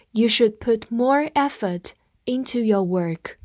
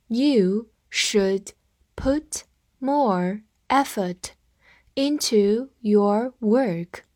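First: Said in the usual way. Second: Word by word, very slow, pauses between; slow read-through. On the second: Shown as a demonstration. Teacher modelling a sentence for learners, slow read-through. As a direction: read it slowly for learners to follow. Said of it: "好，我们慢读一遍".

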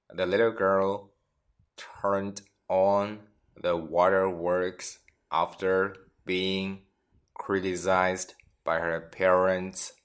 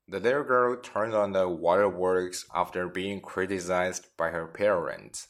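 First: Slow, phrase by phrase for learners; teacher reading slowly in chunks; slow teaching read. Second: Said in the usual way. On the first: Shown as a demonstration. Teacher repeats example slowly for students. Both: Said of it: "我们看看例子".

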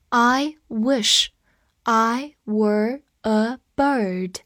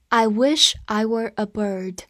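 First: Slow, separated words; slow reading. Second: Said in the usual way. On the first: Shown as a demonstration. Teacher helping learners memorise the sentence, slow reading. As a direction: read it word by word with pauses.

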